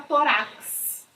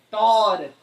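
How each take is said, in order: First: Tórax com a tônica errada no fim, torax; wrong stress. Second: Tórax with stress on the first syllable, TÓ-rax; correct stress. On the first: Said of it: "Não tá certo". (tórax pronunciado errado, tônica no final) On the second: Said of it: "não tá certo falar tórax". (tórax com a tônica na primeira sílaba) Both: Shown as a demonstration.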